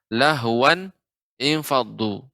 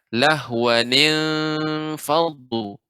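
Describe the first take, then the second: First: The words are read separately without linking. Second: The words are joined with a linking ni sound.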